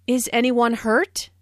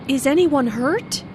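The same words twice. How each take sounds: First: Anxious "Is anyone hurt?" rising at the end; worried question. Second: Anxious "Is anyone hurt?", rising at the end; worried yes-no question with a rise. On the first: Shown as a demonstration. Teacher demonstrates the worried rising question. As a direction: ask "Is anyone hurt?" with worry, pitch up at the end. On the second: Acted. Friend asks after the crash, worried and rising. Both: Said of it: "asked in a worried way".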